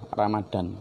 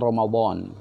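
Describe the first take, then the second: First: The middle consonant is a plain d sound. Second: The middle consonant is a heavy emphatic d. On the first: This is the common local way of saying it. "sering ditulis dan diucapkan sebagai" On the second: This is the original Arabic way of saying it. "kalau aslinya kan Ramadan, pakai bo ya"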